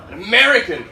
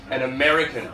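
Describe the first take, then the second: First: "American" hit louder on the repeat; stress on American. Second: Said in the usual way. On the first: Real, not acted. Comic recalling a London gig, American stressed with emphasis. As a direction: punch the word American.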